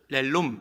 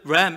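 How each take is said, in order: First: The word is stretched into two syllables. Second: The word is said as one short syllable. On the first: The speaker calls it wrong. "그것을 렐룸 이렇게 발음해갖고" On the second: The speaker calls it right. "우리 그 램 이렇게 발음해야 되는데"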